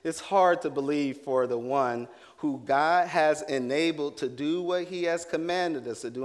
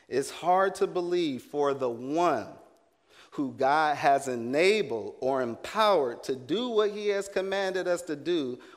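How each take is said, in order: First: It is said at normal speed. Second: It is said slowly.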